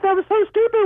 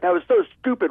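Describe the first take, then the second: First: It is said in a high, squeaky cartoon voice. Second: It is said in a normal, ordinary voice. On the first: The inner critic is made laughable. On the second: A harsh inner critic speaks.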